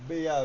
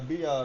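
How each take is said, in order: No difference in how they are said.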